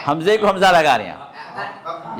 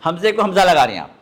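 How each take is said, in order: First: Slow repeat through laughter; amused repeat. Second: Quick, teasing correction. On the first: Teacher laughing at a student's mistake. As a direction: say it again slowly, chuckling. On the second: Teacher gently teasing a student about a mistake. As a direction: tease the student gently and fast. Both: Real, not acted.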